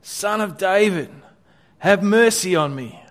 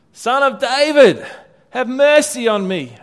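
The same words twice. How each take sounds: First: Mild calling out. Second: High, loud, pleading cry; shouting louder. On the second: Beggar shouting louder over the crowd, pleading. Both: Acted. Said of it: "he only shouted louder".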